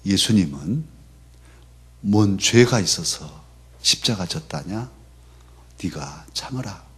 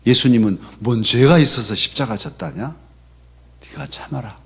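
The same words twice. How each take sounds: First: Gently echoing a mother's Jeolla saying; mother's Jeolla dialect. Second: Fuller Jeolla dialect, 죄가 stressed, question rising at the end; mother's Jeolla dialect. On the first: Mother consoling her son in Jeolla dialect, quiet and gentle. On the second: Mother urging her son to endure, firmer in Jeolla dialect. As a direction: repeat the Jeolla saying more firmly. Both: Retold or imitated. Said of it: "전라도 사투리로".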